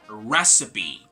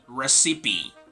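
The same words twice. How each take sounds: First: The stress is on the first syllable. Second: The stress is not on the first syllable. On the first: The speaker calls it right. "the stress is placed in the first syllable" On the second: The speaker calls it wrong. "This is not going to be recipe"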